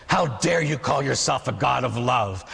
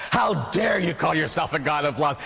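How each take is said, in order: First: Slow, weighty rebuke; measured indignation. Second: Rising, more insistent rebuke; mounting indignation. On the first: Old man accusing God over his dirt, measured indignation. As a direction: lean slowly on the accusation. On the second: Old man pressing his accusation at God, mounting indignation. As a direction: drive the accusation harder, pitch climbing. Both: Acted.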